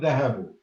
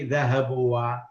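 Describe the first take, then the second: First: The word ends on a short 'u' sound. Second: The word ends with an added 'wa' sound. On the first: The speaker calls it right. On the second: The speaker calls it wrong.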